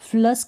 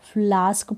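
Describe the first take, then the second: First: The vowel is a short 'uh' sound. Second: The vowel is a long 'aa' sound. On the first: The speaker calls it wrong. "इसको भी फ्लस्क नहीं पढ़ेंगे" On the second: The speaker calls it right. "फ्लास्क पढ़ेंगे"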